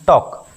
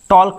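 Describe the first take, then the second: First: No l sound is heard before the k. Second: An l sound is heard before the k. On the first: The speaker calls it right. "पढ़ते हैं टॉक" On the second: The speaker calls it wrong. "टॉल्क नहीं पढ़ते हैं"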